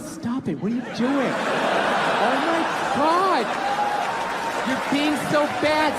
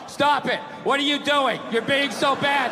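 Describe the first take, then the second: First: It is said in a teasing, playful way. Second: It is read out flatly, without feeling.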